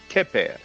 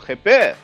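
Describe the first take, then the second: First: It begins with a plain, hard K sound. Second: It begins with a rough, throaty kh sound. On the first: The speaker calls it wrong. "a lot of people pronounce it like a K" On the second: The speaker calls it right. "the Kh is a bit difficult to pronounce"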